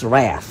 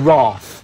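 First: The word is said in an American accent. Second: The word is said in a British accent. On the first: "when they say Star Trek, the wrath can. It's wrath" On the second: "But we say wrath"

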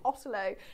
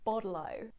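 First: It has a British accent with a crisp T. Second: The T is sounded like a soft D.

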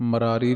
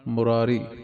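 First: The first syllable has an a vowel. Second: The first syllable has a u vowel. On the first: The speaker calls it wrong. "ਮਰਾਰੀ ਨਹੀਂ ਕਹਿਣਾ" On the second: The speaker calls it right. "ਮੰਮੇ ਦੀ ਔਂਕੜ"

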